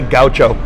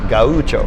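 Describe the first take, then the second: First: It is said with an American English pronunciation. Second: It is said with a Portuguese pronunciation. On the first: "in America we say gaucho" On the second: "the proper pronunciation in Portuguese is gaucho"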